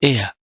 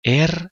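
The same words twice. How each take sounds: First: Er said like two e vowels, "e-a", no r; two vowels in a row. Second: Er with the final r sounded as a consonant. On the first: Teacher corrects learners' Er, final r as a vowel. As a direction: glide through Er with a vowel ending. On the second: Teacher warns learners off this er, sounding the r. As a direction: say er the wrong way, r fully pronounced. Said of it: "er نگید". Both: Shown as a demonstration.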